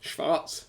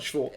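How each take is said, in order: First: The word is said with a V sound. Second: The word is said with a W sound. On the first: The speaker calls it right. "It's a V rather than a W" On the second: The speaker calls it wrong.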